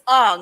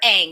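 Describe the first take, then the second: First: The vowel is an open, back 'ah' sound. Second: The vowel is a front 'a' as in cat. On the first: The speaker calls it right. "it's Ong" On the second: The speaker calls it wrong. "It is never Ang"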